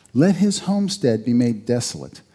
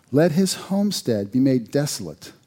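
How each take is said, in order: No difference in how they are said.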